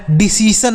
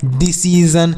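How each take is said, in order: First: "डिसीजन" with s in the last syllable, di-si-san; wrong reading. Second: "डिसीजन" with a voiced z, di-si-zan; correct reading. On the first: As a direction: end "डिसीजन" in a hissed -san. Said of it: "डिसीजन नहीं पढ़ना है". ("डिसीजन" के अंत में ज की जगह सन) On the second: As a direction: end "डिसीजन" in -zan, not -san. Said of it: "तो इसे आप पढ़ना है". ("डिसीजन" के अंत में ज़न की ध्वनि) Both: Shown as a demonstration.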